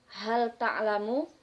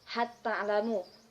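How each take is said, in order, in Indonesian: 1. Bunyi L jelas dilafalkan. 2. Bunyi L melebur ke huruf T yang mengikutinya.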